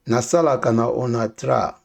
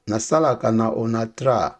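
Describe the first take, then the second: No difference in how they are said.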